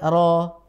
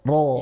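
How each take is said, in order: First: The r is light, with the tongue low. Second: The r is heavy, with the tongue back raised. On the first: The speaker calls it wrong. "Bukan ro ... kebacanya tipis di bawah" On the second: The speaker calls it right. "Naik kan?"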